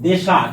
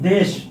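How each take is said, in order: First: A vowel is added at the end. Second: It is said as one syllable.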